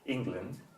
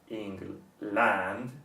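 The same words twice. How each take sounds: First: The second syllable has a short, reduced vowel. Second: The second syllable has a full vowel like land. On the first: The speaker calls it right. "stressing the first syllable and making short the second one" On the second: The speaker calls it wrong. "which is not pronounced as England, which would be the pronunciation for land"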